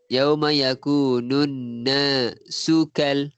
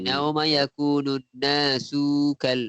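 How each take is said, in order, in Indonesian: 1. 'Su' pendek dan langsung masuk ke 'kal'. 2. 'Su' dipanjangkan sebelum 'kal'. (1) "su tu terus masuk dengan kal. Su tak banyak" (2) "takut ada yang baca"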